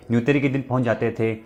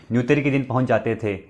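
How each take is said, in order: Both takes have the same delivery.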